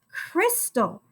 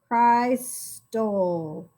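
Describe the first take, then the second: First: The first vowel is a short I sound. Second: The first vowel is a long I, like cry. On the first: The speaker calls it right. "we needed that short I sound instead of the long I" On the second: The speaker calls it wrong. "I think this might be a short vowel"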